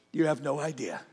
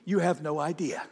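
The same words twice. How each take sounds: First: Soft, low repeat; quietly said again, earnest; hushed. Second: Said in the usual way. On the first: Real, not acted. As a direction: drop it to a hush to let it land. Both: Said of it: "Look at me".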